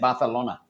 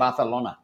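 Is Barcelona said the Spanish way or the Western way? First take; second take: Spanish; Spanish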